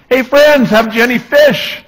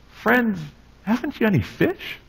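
First: Much higher and louder, hollered across the water; high carrying shout from the beach; calling out from shore. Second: Higher and much softer, gently asked; Jesus asking his friends gently from the shore; gentle Jesus question. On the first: Retold or imitated. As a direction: yell it out to the boat like a nosy stranger. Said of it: "he's yelling out to them". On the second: Acted. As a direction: ask it tenderly, almost under the breath.

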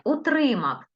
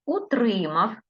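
First: Утримав said high, stress on the first syllable. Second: Утримав with a clear stress on у. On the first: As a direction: lift the opening у of Утримав. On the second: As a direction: dictate Утримав, pressing the у. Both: Shown as a demonstration. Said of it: "я по-різному називала слова".

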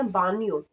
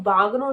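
First: ਬਾਨੀਓ with gn blended into ny; correct Italian pronunciation. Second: ਬਾਗਨੋ with g and n sounded separately; hard-g mispronunciation. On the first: Teacher models Italian for bathroom, ਬਾਨੀਓ with a ny sound. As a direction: say ਬਾਨੀਓ as "BAH-nyo", no g sound. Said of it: "ਇਹਨੂੰ ਕਹਿਣਾ ਬਾਨੀਓ". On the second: Teacher shows learners what to avoid, ਬਾਗਨੋ with a hard g. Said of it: "ਇਹਨੂੰ ਬਾਗਨੋ ਨਹੀਂ ਕਹਿਣਾ". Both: Shown as a demonstration.

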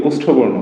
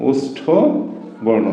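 First: Said in the usual way. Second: ওষ্ঠ, a pause, then বর্ণ, said slowly for dictation; slow spaced repeat. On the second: Shown as a demonstration. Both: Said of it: "এটা বলা হয় কি?".

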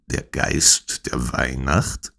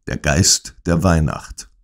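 First: Slow, softer, puzzled question rising on "Weihnacht"; puzzled repetition. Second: Said in the usual way. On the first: A narrator's reading. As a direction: repeat "Der Geist der Weihnacht?" slowly and quietly, baffled, lifting at the end. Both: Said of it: "wiederholte ich".

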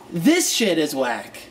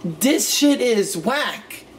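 First: "This" said with a clear th, slow and deliberate; proper th. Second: "This" said as dis, slow mocking slang; higher, slow slang with dis for "This"; dis pronunciation. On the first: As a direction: say "This shit is whack" with a careful th. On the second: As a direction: drawl "This shit is whack" the lazy dis way. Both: Shown as a demonstration.

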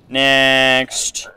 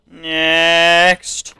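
First: Drawn-out call of "Next". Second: Higher, drawn-out "Next" call; louder call. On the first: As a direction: call the next entrant, stretching it. Calling up next border entrant. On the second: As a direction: call it out again, higher and longer. Repeats call to next entrant. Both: Pretend.

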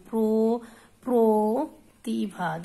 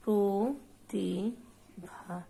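First: প্রতিভা drawn out very slowly and loudly, প্র- first; slow syllable demo. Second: প্রতিভা said very slowly, each syllable separate; slow demo. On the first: Teacher drills প্রতিভা for students, very slowly spoken. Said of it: "রফলাযুক্ত অটি ই হয়ে যাচ্ছে". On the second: Teacher repeats প্রতিভা for class, slowly and carefully. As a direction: draw out প্রতিভা gently. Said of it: "এটার উচ্চারণ আমরা কেমন করি?". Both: Shown as a demonstration.

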